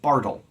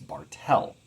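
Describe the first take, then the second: First: The stress is on the first syllable. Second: The stress is on the second syllable. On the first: The speaker calls it wrong. "Lots of people like to pronounce it Bartle, but that's not my name" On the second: The speaker calls it right. "My last name is Bartel"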